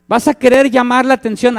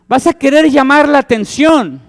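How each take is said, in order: First: Said in the usual way. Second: Louder, higher call for attention; emphatic preacher's call; raised emphatic line. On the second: Shown as a demonstration. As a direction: push the voice up as if calling out.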